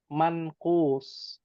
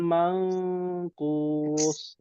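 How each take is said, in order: First: The n is plain, without a lingering nasal ghunnah. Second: The n is held with a lingering nasal ghunnah. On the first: The speaker calls it right. "Manqus, ya" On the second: The speaker calls it wrong. "Salah ya. Ya, salah besar"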